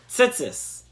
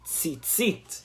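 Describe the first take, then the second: First: The word ends with an s sound. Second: The word ends with a t sound.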